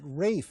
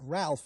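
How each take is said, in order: First: The name is said without an L, like 'Rafe'. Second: The name is said with an L, like 'Ralf'. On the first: The speaker calls it wrong. "and not Rafe, as so many radio announcers do" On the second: The speaker calls it right. "pronounce it Ralph"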